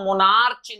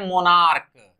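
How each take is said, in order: First: The word ends with a ch sound. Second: The word ends with a k sound. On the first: The speaker calls it wrong. "इसे हम मोनार्च नहीं pronounce करते हैं" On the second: The speaker calls it right. "इसे pronounce करते हैं मोनार्क"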